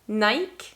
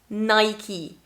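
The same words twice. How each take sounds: First: It is said with a French pronunciation. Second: It is said with a British English pronunciation. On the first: "in French, we are going to say that like Nike" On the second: "But in English, British English, we are going to say Nike"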